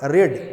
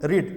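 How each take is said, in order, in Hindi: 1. स्वर छोटा है, 'bed' जैसा। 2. स्वर लंबा है, 'bead' जैसा। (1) "उसका प्रोनाउंसिएशन क्या होगा, रेड" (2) "यू शुड रीड, आपको पढ़ना चाहिए"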